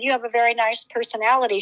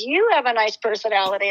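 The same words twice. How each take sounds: First: Said in the usual way. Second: Retold compliment, "You" stretched and lifted; emphatic "You", returning the compliment; stress on YOU. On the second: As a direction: turn it back with weight on "You".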